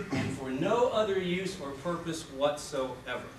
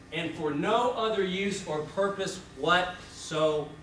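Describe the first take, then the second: The two takes are said the same way.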